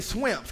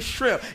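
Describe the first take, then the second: First: The word has a country, rural Southern pronunciation. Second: The word has a standard pronunciation. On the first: "Y'all say swimps" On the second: "Y'all don't say shrimp"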